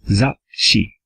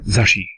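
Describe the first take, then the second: First: The word has a short break in the middle. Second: The word flows with no break inside. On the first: The speaker calls it right. "there is that pause" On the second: The speaker calls it wrong. "it's not a clean zashi, it's it's not zashi"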